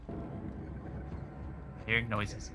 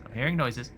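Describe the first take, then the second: First: Scared whisper, slow and hushed; hushed and slow, creeped out. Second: Said in the usual way. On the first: Real, not acted. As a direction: breathe it out in fear.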